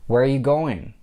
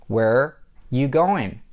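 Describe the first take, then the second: First: "Where are you" blended into one chunk; linked speech. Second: Slow "Where you going", pause after "Where"; broken-down demo. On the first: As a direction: run "Where are you going" together smoothly. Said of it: "Those three words are blended together". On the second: Teacher splits the example for learners. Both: Shown as a demonstration.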